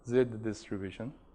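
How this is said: The letter is said the British way, 'zed'. "if you want to pronounce it like Brits or Aussie"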